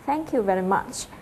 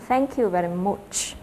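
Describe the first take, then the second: First: Said in the usual way. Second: Australian accent, much said slowly as "mu"; slow Australian "Thank you very much", much with no ch. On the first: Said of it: "trong cái từ much". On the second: Shown as a demonstration. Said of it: "các bạn sẽ nghe thấy là".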